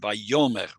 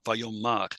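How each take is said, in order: First: The last syllable has an eh vowel. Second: The last syllable has an ah vowel. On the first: This is the normal, non-pausal form. "normally it would be Vayomer" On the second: This is the pausal form at the Atnach. "we don't have the segol there, but an ah still"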